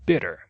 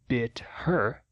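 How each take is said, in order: First: The h is dropped, merging into one word. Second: The h in 'her' is clearly pronounced. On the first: "não pronuncia a letra H em her" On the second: "Em vez de bit her"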